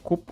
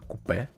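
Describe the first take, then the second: First: The word is said the American way. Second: The word is said as it is spelled. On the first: "as Americans say it" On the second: "how it's actually spelled"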